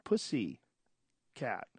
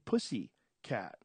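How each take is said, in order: First: There is a pause between the two words. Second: The two words run together without a pause.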